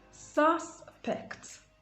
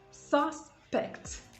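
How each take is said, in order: First: The stress is on the first syllable. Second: The same.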